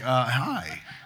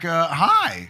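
First: The voice stays steady on the word. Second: The voice cracks on the word. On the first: The speaker is calm. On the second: The speaker is nervous.

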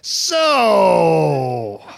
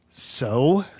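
First: It sounds disgusted, as after being thrown up on. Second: It sounds like impatiently waiting for more.

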